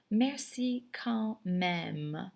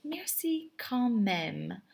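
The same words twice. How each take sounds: First: Merci quand même very slow, rising; very slow second take; slower repeat. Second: Merci quand même said slowly with a rise; drawn-out Merci quand même; slow teacher demo; slow model phrase. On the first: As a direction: stretch Merci quand même even more. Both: Shown as a demonstration. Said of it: "you would say".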